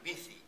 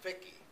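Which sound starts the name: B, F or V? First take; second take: B; F. First: The name starts with B, middle 'th'. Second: The name starts with F, middle 'k'. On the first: This is how people in Spain say it. "in Spain, the V is a B, the C is a T H" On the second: This is how people in Germany say it. "in Germany, the V is an F, the C is a K"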